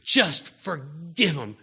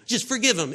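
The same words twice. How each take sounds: First: Slow, louder; slow, louder plea to the congregation. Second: Higher and louder; higher, louder repeat of the plea; pushed exhortation. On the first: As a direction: plead it slowly. Preacher urging forgiveness. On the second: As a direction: push the repeat harder. Repeated with a rise. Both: Real, not acted.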